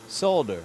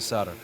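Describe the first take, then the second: First: The L sound is pronounced. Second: The L sound is silent. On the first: The speaker calls it wrong. "There, I said it once" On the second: The speaker calls it right. "Now we're going to go back to solder"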